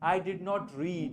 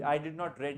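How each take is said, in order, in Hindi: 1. इस क्रिया में लंबा ee स्वर है। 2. इस क्रिया में छोटा e स्वर है। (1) "डिड यूज किया है तो रीड ही आएगा" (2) "आई डिड नॉट रेड नहीं आएगा"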